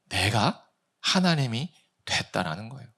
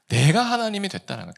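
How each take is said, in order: First: Measured, with pauses between phrases; deliberate statement. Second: Quicker, higher, run together; emphatic restatement. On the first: Preacher revealing the conclusion to congregation, deliberate phrasing. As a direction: set out each phrase separately. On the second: Preacher restating the conclusion to congregation, brisk emphasis. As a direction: drive it home in one quick sweep. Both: Shown as a demonstration.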